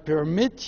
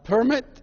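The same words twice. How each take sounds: First: The stress is on the second syllable. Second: The stress is on the first syllable. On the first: It is a verb. "but when it's a verb" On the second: It is a noun. "you go to get your driver's permit"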